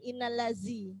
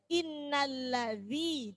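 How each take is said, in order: First: The middle consonant sounds like a z. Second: The middle consonant sounds like th in this. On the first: The speaker calls it wrong. "zal biasanya larinya ke za, ke zain" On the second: The speaker calls it right. "Zal itu bacanya za. Jangan sampai keliru ke za"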